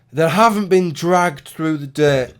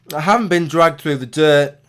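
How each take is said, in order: First: Words broken by a burp. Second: Said in the usual way. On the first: Real, not acted. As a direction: burp while speaking. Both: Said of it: "pardon me, I'm burping".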